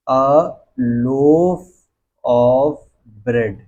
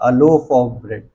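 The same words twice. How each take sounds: First: "a loaf of bread" very slowly, a pause after each word; word-by-word dictation. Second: Said in the usual way. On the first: Shown as a demonstration. Teacher dictates a loaf of bread to students, word by word.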